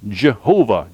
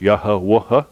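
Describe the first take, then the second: First: The name begins with a J sound. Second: The name begins with a Y sound. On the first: "where the Y has a J sound" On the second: "you can pronounce it uh, Yahweh"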